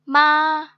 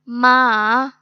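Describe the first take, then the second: First: The pitch stays high and level. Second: The pitch falls and then rises. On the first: It means mother. "Straight tone के साथ? It's like माँ माँ, बिल्कुल straight" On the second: It means horse. "Third tone जिसको हम falling and rising tone कहते हैं"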